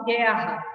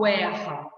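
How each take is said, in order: First: "guerra" starting with a hard G, no U sound; correct silent U. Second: "guerra" starting with a GW sound; wrong pronunciation. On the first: Teacher showing students the digraph, "guerra" with silent U. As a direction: say "guerra" the usual way, as "gherra". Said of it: "eu falo guerra". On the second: Teacher showing students what isn't said, "guerra" as "gwerra". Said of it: "Eu não falo guerra". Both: Shown as a demonstration.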